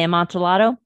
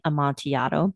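First: The double L is sounded like an L. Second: The double L is sounded like a Y. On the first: The speaker calls it wrong. "If you say Amontillado, you're wrong" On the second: The speaker calls it right. "that would be the Spanish pronunciation where two L's make a Y"

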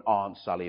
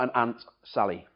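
First: It is said in a southern English accent. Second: It is said in a northern English accent.

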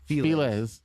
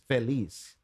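First: The name is said with English sounds. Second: The name is said with Spanish sounds. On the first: This is how it is said locally in the United States. "to pronounce it like with in English. Then, yeah, it is Feliz" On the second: This is how it is said in the original language. "if they're pronouncing it in Spanish, then it is Feliz"

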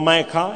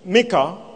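First: The name is said with an English pronunciation. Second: The name is said with a Hebrew pronunciation. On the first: "those who try to pronounce in English" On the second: "I prefer Micah in Hebrew"

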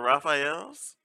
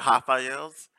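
First: The name is said with an English accent. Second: The name is said with a Brazilian accent.

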